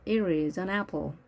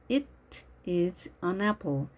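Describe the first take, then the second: First: The t is a soft flap like r. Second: The t is a clear, crisp t sound. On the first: "미국식일 경우에는 ... r 발음이 됩니다 ... 부드럽게 발음을 합니다" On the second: "영국식 발음일 때는 ... 트 발음을 하지만"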